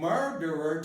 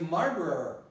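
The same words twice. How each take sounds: First: The word is said in full, all syllables clear. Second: The word is said shortened, syllables run together. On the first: "goes from murderer" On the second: "to murderer"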